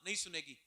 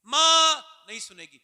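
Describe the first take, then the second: First: Quiet. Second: Loud. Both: Acted.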